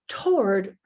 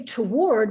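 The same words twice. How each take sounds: First: It is said as one single stressed syllable. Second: It has two syllables, stressing the second. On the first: "the stress is on the whole thing, because in a single syllable word" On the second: "we're stressing the second part"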